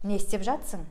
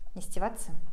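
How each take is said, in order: First: The helper verb is shortened, dropping a syllable. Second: The words are squeezed together into one short word. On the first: This is how people say it in everyday speech. "в разговорной речи сами же казахи говорят" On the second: This is an even more casual, conversational way. "еще более разговорная речь"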